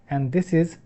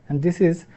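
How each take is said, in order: The two takes are said the same way.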